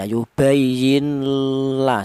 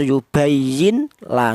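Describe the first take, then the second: First: The n is held with a nasal hum. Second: The n is pronounced clearly before the l. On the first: "Kalau ada dengungnya salah ya" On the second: "Tidak boleh dibaca idhar"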